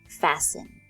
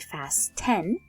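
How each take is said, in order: First: The t sound is silent in the middle. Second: The t sound is pronounced in the middle. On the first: The speaker calls it right. "we say fasten" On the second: The speaker calls it wrong. "We don't say fasten"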